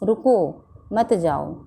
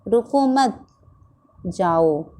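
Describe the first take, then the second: First: There is a pause after the first word. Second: There is a pause after the second word. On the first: The listener is told to stay. "इन दोनों वाक्यों में बच्चे को बाहर जाने से रोका गया है" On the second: The listener is told to go. "इस वाक्य में बच्चे को बाहर जाने जाने को कहा गया है"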